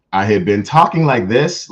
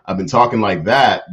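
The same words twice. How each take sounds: First: Put-on higher voice. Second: Said in the usual way. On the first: Shown as a demonstration. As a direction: lift into a higher presentable voice. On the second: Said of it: "actually use my regular voice".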